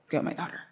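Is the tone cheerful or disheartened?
disheartened. It is said in a low, disheartened tone. The speaker has lost hope. "I imagine it's very disheartened"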